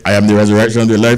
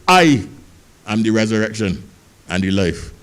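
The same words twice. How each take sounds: First: It is rattled off quickly in a plain voice. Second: It is said slowly like a Rasta man.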